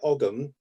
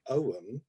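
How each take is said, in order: First: The G sound in the middle is pronounced. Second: The G sound in the middle is silent. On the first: This is how the speaker says it. "I pronounce it" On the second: This is how other people say it. "with the silent G"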